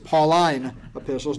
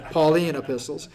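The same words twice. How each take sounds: First: Pauline is not said like the woman's name. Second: Pauline is said like the woman's name. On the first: It refers to letters written by Paul. The speaker calls it right. "So it's the Pauline epistles" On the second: It sounds like a woman's name. The speaker calls it wrong. "not the Pauline epistles"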